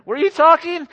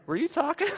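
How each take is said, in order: First: High, loud, overly innocent "Were you talking?"; hammed-up clueless husband, pitched way up; mock innocent husband. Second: High pitched innocent question; mock innocent husband. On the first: Pastor jokes how husbands dodge their wives, high and innocent. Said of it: "That's not the right one". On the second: Pastor repeats the joke line for Corey, high and innocent. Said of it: "Write that down".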